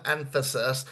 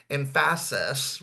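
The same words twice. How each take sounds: First: Said in the usual way. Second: "emphasis" said very slowly, each syllable clear; slowed emphasis. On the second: Shown as a demonstration. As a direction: drag "emphasis" out slowly to show how it's done. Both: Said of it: "you wanna slow your speech down".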